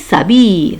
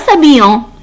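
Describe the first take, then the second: First: The ending is silent, with no nasal vowel. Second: The ending is pronounced as a nasal vowel. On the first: The speaker calls it right. "alors il se prononce il s'habille" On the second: The speaker calls it wrong. "Ce n'est pas s'habillant"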